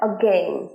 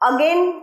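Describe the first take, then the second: First: The stress is on the second syllable. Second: The stress is on the first syllable. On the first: The speaker calls it right. "আটা খুব ছোট, gain এর স্ট্রেসটা ফেলছি আমরা" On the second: The speaker calls it wrong. "again নয়"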